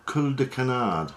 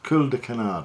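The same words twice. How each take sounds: First: A jokey, self-mocking French accent on "cul de canard". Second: Said in the usual way. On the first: Shown as a demonstration. Naming the fly material for viewers in a mock French accent. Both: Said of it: "My fantastic French accent".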